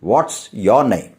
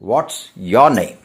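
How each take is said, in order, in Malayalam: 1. 'is' എന്ന വാക്ക് 'what'-ൽ ചേർത്ത് ചുരുക്കി പറയുന്നു. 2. 'is' എന്ന വാക്ക് 'what'-ൽ ചേർത്ത് ചുരുക്കി പറയുന്നു.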